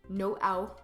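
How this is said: It is said with a French accent.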